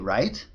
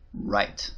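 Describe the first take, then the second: First: It is said with a questioning tune. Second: It is said with an answering tune. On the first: The speaker is asking something. "The first was a question" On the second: The speaker is confirming something. "Right is an answer"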